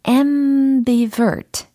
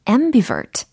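First: The word is said at a slower pace. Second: The word is said at a faster pace.

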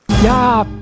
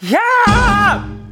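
First: The shout is at a normal strength. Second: The shout is very loud and forceful.

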